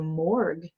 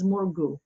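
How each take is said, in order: First: It is said the usual American way. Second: It is said the local, non-American way. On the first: This is how people in the States would say it. "We would say morgue in the States" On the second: This is how the people there say it. "the way they pronounce it is Morgu"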